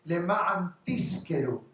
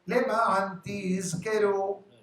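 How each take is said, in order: First: The verb is said with an s sound. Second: The verb is said with a z sound. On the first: It means to rent. The speaker calls it wrong. "For you to lease, to rent" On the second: It means to remember. The speaker calls it right. "pronounce the Zayin"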